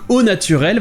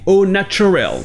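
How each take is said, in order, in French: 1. Il se prononce avec un son t français simple. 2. Il se prononce avec un son ch anglais.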